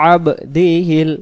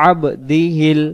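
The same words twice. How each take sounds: No difference in how they are said.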